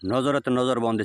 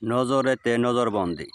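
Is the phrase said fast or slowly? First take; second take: fast; slowly. First: It is said quickly, all in one breath. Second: It is said slowly, with words drawn out. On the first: "এভাবে যেমন আমি এক নিঃশ্বাসে বলছি" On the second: "আস্তে আস্তে ধীরে ধীরে আবার বলতেছি"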